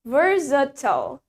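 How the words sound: It is said in an American accent. "Sedangkan di American accent, we say it versatile"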